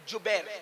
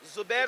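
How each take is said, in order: First: The name begins with a j sound. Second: The name begins with a z sound. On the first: The speaker calls it right. "जिम से जुबैर" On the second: The speaker calls it wrong. "नहीं"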